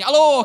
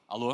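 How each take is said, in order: First: It is said in an irritated, heated tone. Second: It is said in a calm, controlled tone. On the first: The caller hears the anger from the argument. The speaker calls it wrong. "Você está lá discutindo com a pessoa, atende e fala assim" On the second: The anger is held back for the caller. The speaker calls it right. "Você respira"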